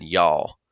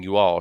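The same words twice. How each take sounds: First: "y'all" run into one Southern syllable. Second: Said in the usual way. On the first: Shown as a demonstration. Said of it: "she said "y'all". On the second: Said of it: "Instead of saying "you all".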